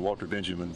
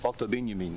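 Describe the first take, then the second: First: Both names are said with English pronunciation. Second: Both names are said with German pronunciation. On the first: The speaker calls it wrong. "I've often been taken to task for saying Walter Benjamin" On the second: The speaker calls it right. "you did the German, the double German"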